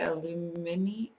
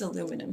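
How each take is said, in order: First: It is said the Australian way, aluminium. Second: It is said the American way, aluminum. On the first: This is how people in Australia say it. "I don't say what the people in Australia say" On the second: This is how people here say it. "It's aluminum here"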